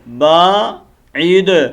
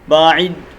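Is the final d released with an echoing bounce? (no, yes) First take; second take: yes; no. First: The final d ends with a clear echoing bounce. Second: The final d ends flat, without a bounce. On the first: The speaker calls it right. "क्या पढ़ना है हमने?" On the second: The speaker calls it wrong. "ये गलत है"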